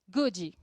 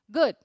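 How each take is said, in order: First: It is split into two syllables. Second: It is one syllable with a soft final D. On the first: The speaker calls it wrong. "dividimos o good em duas sílabas" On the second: The speaker calls it right. "esse D, ele é uma pronúncia bem suave e ele é uma única sílaba"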